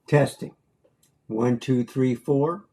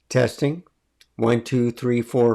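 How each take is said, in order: First: The voice sounds echoey, like in a room. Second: The voice sounds clean, without echo. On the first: "You hear an echo?" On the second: "It's quite different, isn't it?"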